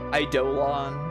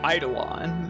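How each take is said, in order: First: The stress is on the second syllable. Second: The stress is on the first syllable. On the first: "I should hit the dough more" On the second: "I'm saying Eidolon"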